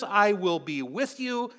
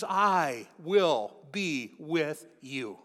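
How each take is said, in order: First: "I will be with you" higher, in one slow phrase; quoted promise. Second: "I will be with you" very slowly, every word separate; emphatic word by word. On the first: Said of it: "when he says". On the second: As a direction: spell out the promise "I will be with you", one drawn-out word at a time. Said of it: "He means". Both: Shown as a demonstration.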